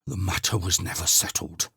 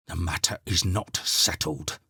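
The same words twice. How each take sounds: First: Put-on old Quences defying the housekeeper; blustering. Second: Put-on lower, firmer old man; stubborn repetition. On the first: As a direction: puff up in protest. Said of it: "blustered Quences". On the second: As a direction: dig in and repeat it. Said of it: "repeated Quences". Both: A narrator's reading.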